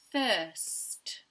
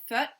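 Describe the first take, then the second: First: The s and t sounds are both pronounced. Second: The s sound before the t is dropped. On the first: The speaker calls it right. "But we need first" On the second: The speaker calls it wrong. "Tan will often say fut"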